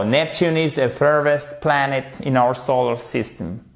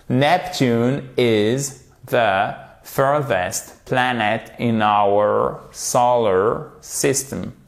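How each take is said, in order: First: Said in the usual way. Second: Slow model sentence, word by word; slowly, carefully. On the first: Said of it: "faites-le doucement si c'est un peu difficile". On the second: Shown as a demonstration. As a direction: take it gently, with gaps between words. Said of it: "Alors, faites-le doucement si c'est un peu difficile". (lentement, mot par mot, en articulant)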